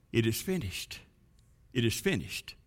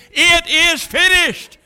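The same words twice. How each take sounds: First: Very soft, low hush; hushed whispering. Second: High, triumphant proclamation; heralding. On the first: Blood drops tell the grass, hushed and whispering. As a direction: drop right down to a near-whisper. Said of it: "whispered to the grass". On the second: Angels on streets of gold, heralding the message. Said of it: "heralding that message". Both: Acted.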